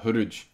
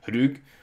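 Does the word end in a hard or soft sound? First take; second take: soft; hard. First: It ends in a soft palatal j sound. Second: It ends in a hard g stop. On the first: "but it could very well be pronounced uh" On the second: "maybe it could be pronounced as hrug"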